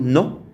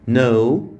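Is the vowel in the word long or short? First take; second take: short; long. First: The vowel is a short o sound. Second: The vowel is a long o sound. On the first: The speaker calls it wrong. "ما ينفعش اقول نو" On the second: The speaker calls it right. "بقول باسمه"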